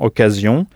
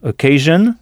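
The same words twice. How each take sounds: First: The ending is said like 'zion', French style. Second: The ending is said like 'zhun', English style. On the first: "En français, on prononce la terminaison S-I-O-N, zion, comme dans occasion" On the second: "en anglais, S-I-O-N se prononce jeune, comme dans occasion"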